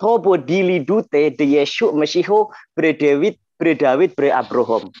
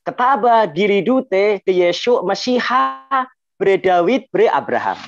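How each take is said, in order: First: Bacaan Aram Suryoyo yang lambat, vokal O bulat; dialek Suryoyo. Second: Bacaan Aram Madenoyo yang lambat, vokal A terbuka; dialek Madenoyo. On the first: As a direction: bacakan pelan gaya Suryoyo, "Mesiho", "Abrohom". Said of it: "Ini Suryoyo". (dialek Suryoyo, bervokal O) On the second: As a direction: bacakan pelan gaya Madenoyo, "Mesiha", "Abraham". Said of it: "menurut dialek Madenoyo gini". (dialek Madenoyo, bervokal A) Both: Shown as a demonstration.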